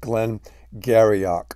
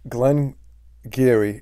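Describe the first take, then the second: First: The name is said sounding out every letter. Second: The name is said in a short, contracted form. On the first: The speaker calls it wrong. "if you looked at the word and enunciated it, it looks like" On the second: The speaker calls it right. "Glen Geary is how it's pronounced"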